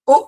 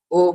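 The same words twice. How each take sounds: First: "উ" short, high and cut off hard; forceful hamza. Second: Said in the usual way. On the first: Shown as a demonstration. Teacher drills hamza with students, an abrupt, forceful "উ". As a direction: punch "উ" out from the navel. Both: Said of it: "এত জোরে করতে হবে".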